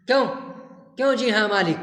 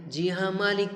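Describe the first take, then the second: First: Louder, mocking echo of "जी हाँ मालिक" with "क्यों" snapped; angry echo. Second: Said in the usual way. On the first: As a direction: throw her "जी हाँ मालिक" back at her in a mild mock rage. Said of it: "गुस्से से तुतलाने लगता है".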